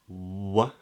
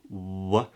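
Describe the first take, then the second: First: It begins with a W sound, lips rounded. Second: The same.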